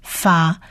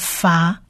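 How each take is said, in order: First: The syllable begins with an f sound. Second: The syllable begins with an f sound.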